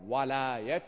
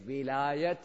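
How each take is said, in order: First: "walayat" with an open a sound, wa-la-yat. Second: "wilayat" with a short i sound, wi-la-yat. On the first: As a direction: say "walayat" with a fatha on the w, wa-. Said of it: "put a fatha on top of the waw, you call it walayat". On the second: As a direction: say "wilayat" with a kasra on the w, wi-. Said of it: "the word which we say, wilayat, you put a kasra under the waw". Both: Shown as a demonstration.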